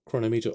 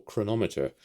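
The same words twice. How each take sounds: First: Chronometer as chrono-MEE-ter, long ee in the third syllable; first pronunciation option. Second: Chronometer as kruh-NOM-uh-ter, stressed on NOM; second pronunciation option. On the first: Vlogger unsure of an app's name, offering Chronometer as chrono-MEE-ter. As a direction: say Chronometer like "chrono" plus "meter". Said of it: "the way that you would pronounce it". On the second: Vlogger unsure of an app's name, offering Chronometer as kruh-NOM-uh-ter. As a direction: say Chronometer to rhyme with thermometer. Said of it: "not quite sure which is the way".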